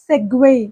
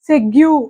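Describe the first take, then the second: First: The word ends with a 'gway' sound. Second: The word ends with a 'gyoo' sound. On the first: The speaker calls it right. "దీని actual pronunciation ఏంటంటే" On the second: The speaker calls it wrong. "ఈ spelling పట్టుకుని మనం pronounce చేశామనుకోండి"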